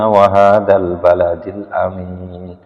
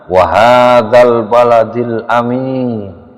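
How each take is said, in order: First: It is said in a normal, even voice. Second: It is said in a loud, raised voice.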